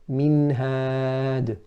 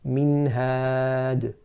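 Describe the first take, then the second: First: The n is clear with a short nasal sound. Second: The n is clear with a short nasal sound.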